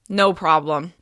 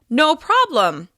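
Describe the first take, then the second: First: Flat tone with little pitch movement throughout. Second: Upbeat tone with a higher pitch on prob. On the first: The speaker was frustrated to help. The speaker calls it wrong. "Flatter intonation may sound sarcastic or annoyed" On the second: The speaker was happy to help. The speaker calls it right. "to sound even more upbeat and sincere, you can hit a slightly higher pitch on prob"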